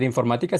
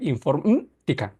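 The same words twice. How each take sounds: First: Said in the usual way. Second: "informática" broken as "infor-mm-tica", the A dropped; missing A. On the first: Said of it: "sino se va a leer". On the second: Shown as a demonstration. Teacher showing how a lost accented letter reads, missing A. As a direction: drop the A from "informática", leaving a hummed gap. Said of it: "la A no va a aparecer".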